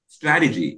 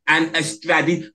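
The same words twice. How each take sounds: First: Strategy said alone with a firm falling stress. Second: Said in the usual way. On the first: Shown as a demonstration. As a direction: land hard on Strategy and let it fall. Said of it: "I can't stress, emphasize that word enough". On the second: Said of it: "emphasize that word enough".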